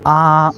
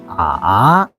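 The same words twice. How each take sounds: First: The pitch stays level and flat. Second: The pitch dips low then rises again. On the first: "first tone is flat" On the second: "Third tone is curved"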